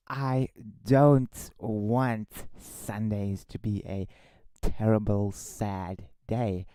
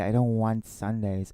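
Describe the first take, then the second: First: Slowed right down, each word deliberate; re-say it slowly and carefully; said properly. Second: Said in the usual way. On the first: Shown as a demonstration. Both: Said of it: "let me re-say that".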